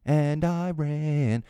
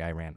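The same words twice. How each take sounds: First: Iran drawn out slowly and stretched; emphatic Iran. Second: Said in the usual way. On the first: Shown as a demonstration. Host stressing where the bloggers got detained, emphatically. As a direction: lean hard on Iran, slow and weighty. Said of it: "whenever I say it, like, emphatically like that". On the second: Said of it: "It's no disrespect to your country".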